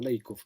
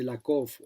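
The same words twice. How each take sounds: First: "Lakoff" said LAY-kof; first vowel of "Lakoff" as EI; English pronunciation. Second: "Lakoff" said LAH-kof; first vowel of "Lakoff" as open A; old Spanish pronunciation. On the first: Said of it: "como se dice en inglés". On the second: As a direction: say "Lakoff" Spanish-style, with a plain "ah". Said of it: "nosotros decíamos Lakoff toda la vida". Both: Shown as a demonstration.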